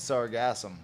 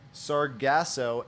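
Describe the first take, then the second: First: The word ends with an M sound. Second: The word ends without an M sound. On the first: "there's actually two ways to pronounce it" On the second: "there's actually two ways to pronounce it"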